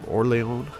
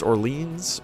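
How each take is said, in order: First: It is pronounced with a French-style pattern. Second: It is pronounced with an American English pattern. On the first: The speaker calls it right. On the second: The speaker calls it wrong.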